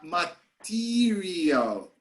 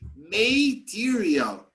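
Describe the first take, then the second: First: The first vowel is short and reduced. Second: The first vowel sounds like the letter name. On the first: The speaker calls it right. "that's why we say uh" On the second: The speaker calls it wrong. "but then shouldn't it be material?"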